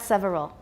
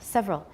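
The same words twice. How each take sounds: First: The word is said carefully with three syllables. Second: The word is said reduced to two syllables. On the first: The speaker calls it wrong. "Just two, not several. Several is not wrong, but it's it sounds too careful" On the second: The speaker calls it right. "Just two"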